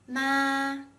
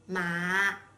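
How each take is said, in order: First: The pitch stays high and level. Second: The pitch dips to the bottom of the voice. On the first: It means mom. "a flat and high-pitched tone" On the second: It means horse. "a low tone"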